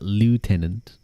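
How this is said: It is said with an American pronunciation. "do you want me to be American and call it"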